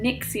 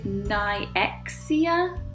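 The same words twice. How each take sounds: First: The X sound is not emphasized. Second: The X sound is emphasized. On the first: "I'm going with" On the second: "with an emphasis on the X"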